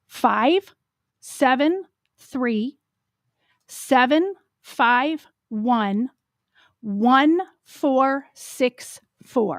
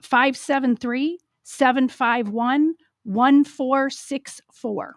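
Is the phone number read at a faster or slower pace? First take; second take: slower; faster. First: The number is read at a slower pace. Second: The number is read at a normal pace.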